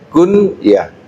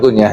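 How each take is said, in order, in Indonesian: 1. Diucapkan dengan bunyi Arab. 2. Diucapkan seperti kata Indonesia sehari-hari. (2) "Bukan kunyah ya"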